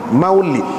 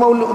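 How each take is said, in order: First: The second syllable has an 'ee' vowel. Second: The second syllable has an 'oo' vowel. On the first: This is the proper form of the word. The speaker calls it right. "tu betul" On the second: This is how local people commonly say it. The speaker calls it wrong. "tak betul orang panggil maulud tu"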